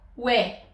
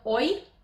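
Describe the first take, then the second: First: It is said as one glide, like we. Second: It is said as two separate vowels, o then i. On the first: The speaker calls it right. "îl pronunțăm ue" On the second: The speaker calls it wrong. "nu îl pronunțăm oi, da? Ca vocalele din care e compus"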